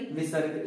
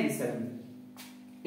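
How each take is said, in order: First: Said in the usual way. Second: विसर्ग stretched very slow, low and soft; विसर्ग spoken slowly and quietly, syllable by syllable; drawn-out answer. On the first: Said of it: "इन्हें क्या कहते हैं भाई". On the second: Shown as a demonstration. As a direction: draw out विसर्ग slowly so students repeat it. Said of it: "इन्हें क्या कहते हैं".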